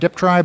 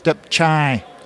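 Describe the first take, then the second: First: The middle consonants sound like 'tr'. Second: The middle consonants sound like 'ch'. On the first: The speaker calls it wrong. "most people say Deptry" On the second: The speaker calls it right. "in fact it's Deptchai. Chai like a CH"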